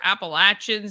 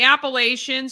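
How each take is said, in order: First: It is pronounced the way local residents say it. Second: It is pronounced the way outsiders say it.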